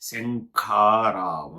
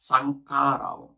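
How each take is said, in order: First: The word begins with an 'sh' sound. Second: The word begins with a plain 's' sound. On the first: The speaker calls it right. "శంఖారావం చెప్పు పలుకు నాతో పాటి" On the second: The speaker calls it wrong. "నువ్వు చెప్పిండేది సీతలో సా"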